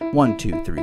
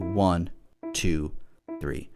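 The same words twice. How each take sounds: First: The counting is fast. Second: The counting is slow.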